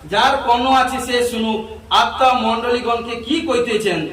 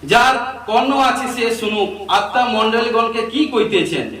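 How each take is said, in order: The two takes are said the same way.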